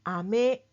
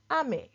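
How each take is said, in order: First: "ame" with one pitch pattern, held up clearly; pitch accent demo. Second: "ame" with the opposite pitch pattern, falling at the end; pitch accent demo. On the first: Teacher contrasting candy and rain for learners, pitch accent demo. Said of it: "But one is". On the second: Teacher contrasting candy and rain for learners, falling pitch accent. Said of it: "You can hear the difference". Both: Shown as a demonstration.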